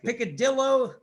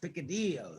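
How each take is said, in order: First: It is said with an American English pronunciation. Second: It is said with a Spanish pronunciation. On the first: This is how Americans say it. The speaker calls it wrong. "What's like picadillo to the Americans" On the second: This is how the word really goes. The speaker calls it right. "but it's picadillo"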